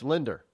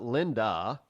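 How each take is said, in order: First: The name ends with an added R sound. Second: The name ends in a plain vowel, no R. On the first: "in a New England accent, it's Linder" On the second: "it's not Linda"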